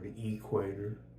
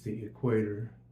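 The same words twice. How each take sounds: First: The stress is on the first syllable. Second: The stress is on the second syllable. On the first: The speaker calls it wrong. "I say it like a hick, ... I put the emphasis on the E" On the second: The speaker calls it right. "It's the equator"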